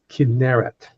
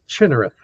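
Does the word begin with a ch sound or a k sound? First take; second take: k sound; ch sound. First: The word begins with a k sound. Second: The word begins with a ch sound. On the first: The speaker calls it right. "but that's Kinneret" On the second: The speaker calls it wrong. "most Americans mispronounce that as Chinnereth"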